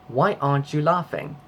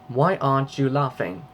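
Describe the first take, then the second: The two takes are said the same way.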